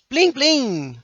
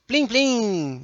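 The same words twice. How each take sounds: First: High chiming plim plim; sound effect plim. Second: "Plim, plim!" chimed lightly, less high; a gentler second chime of "Plim, plim!"; softer plim. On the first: Teacher demonstrating an onomatopoeia for the class, chiming high. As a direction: ring out "Plim, plim!" like a little bell, high and bright. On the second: Teacher repeating the onomatopoeia, gentler chime. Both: Shown as a demonstration. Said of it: "Plim é onomatopeia".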